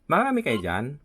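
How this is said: It is said in a gentle, pleasant voice.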